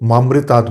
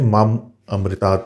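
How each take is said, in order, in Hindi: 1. ये शब्द मिलकर एक शब्द बन गए हैं। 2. ये शब्द दो अलग-अलग शब्दों की तरह बोले गए हैं। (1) "अक्सर लोग मामृतात् बोल देते हैं, जिससे इसका अर्थ ही बदल जाता है" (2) "मैंने माम अमृतात् बोला है"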